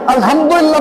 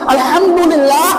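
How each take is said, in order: First: It is said flatly, with careless, indifferent delivery. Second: It is said warmly, with careful, loving delivery. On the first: The praise is only for show, not real thanks. The speaker calls it wrong. "একেবারে আলহামদুলিল্লাহ বলছি" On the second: The praise comes from the heart with love. The speaker calls it right. "সুন্দর উচ্চারণ করে"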